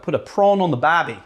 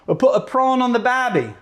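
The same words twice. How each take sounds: First: Put-on tentative stab at an Australian accent; attempted Australian accent. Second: Higher-pitched mock Australian accent; attempted Australian accent. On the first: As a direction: try out an Aussie accent, unsure of it. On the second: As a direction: have another go at Aussie, pitched up. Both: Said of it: "do an Australian accent".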